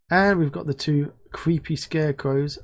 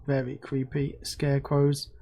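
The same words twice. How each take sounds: First: Said in the usual way. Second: Slow, softer mock-spooky stress on "creepy scarecrows"; savouring how creepy they are; spooky emphasis. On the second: Shown as a demonstration. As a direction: lean into "creepy scarecrows" slowly, a touch eerie.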